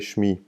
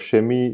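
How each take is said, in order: First: No vowel sits between sh and m. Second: An e vowel sits between sh and m. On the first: The speaker calls it right. "You say shmi" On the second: The speaker calls it wrong. "or shemi"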